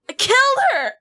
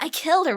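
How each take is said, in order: First: It is said in a devastated, remorseful tone. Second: It is said in a casual, offhand tone. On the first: The speaker calls it right. "You're devastated" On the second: The speaker calls it wrong. "You're not gonna be like"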